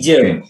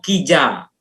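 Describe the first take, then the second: First: The word ends with an 'e' vowel. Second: The word ends with an open 'a' vowel. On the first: This is the lowland Balinese dialect form. "Kalau di Bali dataran" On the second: This is the Baliaga mountain dialect form. "Kalau Baliaga, di akhir kata, eee, bunyinya adalah a"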